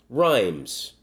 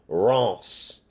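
First: It is pronounced like the English word rhymes. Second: It is pronounced with a French vowel and ending.

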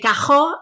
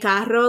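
First: The r is said the Puerto Rican way. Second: The r is said the standard Spanish way. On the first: "we say cajo" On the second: "like normal, like Spanish speaking countries do"

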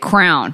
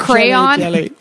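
First: The word is said with one syllable. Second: The word is said with two syllables. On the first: The speaker calls it wrong. "People I find mispronounce crayon. I know so many people that say crown" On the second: The speaker calls it right. "I say crayon"

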